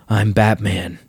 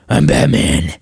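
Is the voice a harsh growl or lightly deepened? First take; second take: lightly deepened; harsh growl. First: The voice is only slightly lower than normal. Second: The voice is an exaggerated harsh, gravelly growl. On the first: The speaker calls it right. "your Batman voice can be" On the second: The speaker calls it wrong. "It doesn't have to be"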